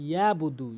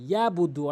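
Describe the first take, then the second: First: The throat consonant ain is left out. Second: The throat consonant ain is left out.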